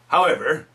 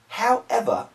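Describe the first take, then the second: First: It is said in an American accent. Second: It is said in a British accent. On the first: The speaker calls it right. "I use real American" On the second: The speaker calls it wrong. "why am I using British? British accent"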